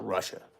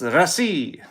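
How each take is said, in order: First: It sounds like the English word rushing. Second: It is said with a Russian-style pronunciation. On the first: The speaker calls it wrong. "we call it Russia as if like they're all in a hurry" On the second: The speaker calls it right. "That's not how they say it. It's it's it's Russia"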